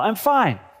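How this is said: It is said in a cheerful, smiling tone. The speaker is content and happy.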